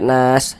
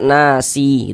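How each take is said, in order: First: The word ends on a silent final s consonant. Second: The word ends with an added i vowel. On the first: The speaker calls it right. "kalau berwakaf huruf sin kita baca nas" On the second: The speaker calls it wrong. "jangan dibaca nasi gitu"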